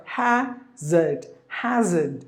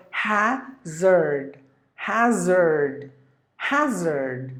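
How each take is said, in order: First: "hazard" as HA-zud, R left silent; r-less British "hazard". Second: "hazard" with the R sounded, HA-zurd; American "hazard" ending in a clear R; American pronunciation. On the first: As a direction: say "hazard" British-style, slowly split, then joined. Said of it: "without the letter R". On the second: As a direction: say "hazard" American-style, slowly split, then joined. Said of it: "if you go to the American way". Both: Shown as a demonstration.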